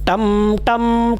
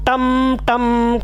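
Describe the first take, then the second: Both takes have the same delivery.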